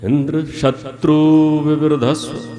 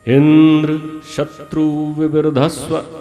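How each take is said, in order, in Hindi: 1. बलाघात 'shatru' पर है। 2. बलाघात 'indra' पर है। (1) "उन्हें उच्चारण करना था" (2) "इंद्र को उदात्त करते हैं और शत्रु को अनुदात्त"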